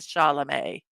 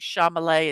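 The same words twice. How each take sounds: First: The M and L sounds are in normal order. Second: The M and L sounds are swapped around. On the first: The speaker calls it right. "instead of Chalamet" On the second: The speaker calls it wrong. "mixing up the M and the L and saying Chalamet"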